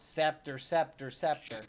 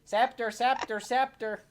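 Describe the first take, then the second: First: Mild mock yell of a command word. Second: High, loud repeated calling; acted shouting, insistent and high; yelling out. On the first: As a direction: call it out in a half-hearted yell. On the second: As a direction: yell the command word at a raised pitch. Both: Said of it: "Jacques starts yelling out".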